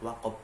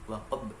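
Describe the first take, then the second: First: The final consonant stops flat without echo. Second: The final consonant bounces with a short echo. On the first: The speaker calls it wrong. "Awalnya waqab" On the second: The speaker calls it right. "Waqab harus ada pantulan"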